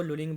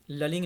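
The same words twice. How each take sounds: First: लुलिंग with an 'oo' in the first syllable; corrected lulling. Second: ललिंग with a short 'uh' in the first syllable; mispronounced lulling. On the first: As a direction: say लुलिंग as 'loo-ling'. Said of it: "लुलिंग बोलेंगे". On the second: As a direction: say ललिंग as 'luh-ling', the wrong way. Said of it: "ललिंग नहीं बोलेंगे". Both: Shown as a demonstration.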